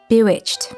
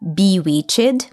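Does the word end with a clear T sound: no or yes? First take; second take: yes; no. First: The word ends with an unvoiced T sound. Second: The word ends without a T sound. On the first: The speaker calls it right. "with the last syllable being unvoiced. You do this by simply adding a T sound after ch" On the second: The speaker calls it wrong. "not bewitched"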